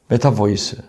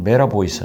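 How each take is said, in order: First: The middle consonant is a clear t sound. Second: The middle consonant is a flapped, r-like sound.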